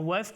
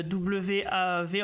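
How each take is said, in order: First: "waf" said as one word, a single syllable; "waf" in one quick syllable. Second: "W A V" spelled letter by letter, slowly; "W A V" said as letters, unsure of the pronunciation. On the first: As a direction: say "waf" with a final f sound. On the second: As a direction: spell out "W A V" as three separate letters. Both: Shown as a demonstration. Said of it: "je sais pas comment on prononce exactement".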